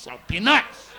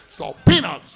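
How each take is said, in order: First: The stress falls on the syllable 'nuts'. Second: The stress falls on the syllable 'pea'. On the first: The speaker calls it wrong. "You don't say salt peanuts" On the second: The speaker calls it right. "You got the accent, the P, not the nuts"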